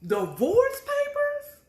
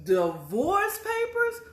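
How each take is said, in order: First: Very high, slow stunned cry; louder disbelief at the papers; more shocked. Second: High, slow disbelieving question; shocked. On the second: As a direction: gasp at the discovery. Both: Retold or imitated. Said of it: "they were divorce papers".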